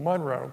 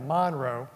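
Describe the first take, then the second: First: Monroe is said the general, non-local way. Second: Monroe is said the way locals say it.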